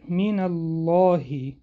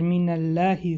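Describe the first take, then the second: First: The l sound is heavy and full. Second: The l sound is thin and light. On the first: The speaker calls it right. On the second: The speaker calls it wrong.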